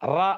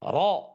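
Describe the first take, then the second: First: The r sound is light, without a full mouth. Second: The r sound is heavy, with a full mouth. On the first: The speaker calls it wrong. "அப்படின்னு சொல்லக்கூடாது" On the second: The speaker calls it right. "அப்படிதான் ரப்பில் தான் சொல்லணும்"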